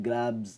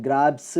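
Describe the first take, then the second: First: ഗ്രാബ്സ് with a buzzed z at the end; softer corrected model, ഗ്രാബ്സ് as "grabz"; voiced Z ending. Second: ഗ്രാബ്സ് with a hissed, voiceless s at the end; loud wrong example, ഗ്രാബ്സ് as "grabss". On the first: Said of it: "ഗ്രാബ്സ് എന്നാണ്". (ഗ്രാബ്സ് അവസാനം "z" ശബ്ദം) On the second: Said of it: "എന്ന് പറയരുത്". (ഗ്രാബ്സ് അവസാനം ശബ്ദമില്ലാത്ത "s") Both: Shown as a demonstration.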